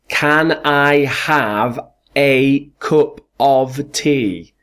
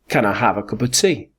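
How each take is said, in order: First: The small words are pronounced fully and strongly. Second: The small words are reduced with weak vowels. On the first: The speaker calls it wrong. "I don't say, can I have a cup of tea? ... That's incorrect pronunciation" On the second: The speaker calls it right. "Correct pronunciation is"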